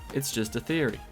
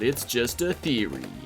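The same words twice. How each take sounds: First: It is said in an ordinary, unaltered voice. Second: It is said in an imitated, put-on voice. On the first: The speaker calls it wrong. "you can't just go, ... that just doesn't sound right" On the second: The speaker calls it right. "You have to put on his voice ... You have to go"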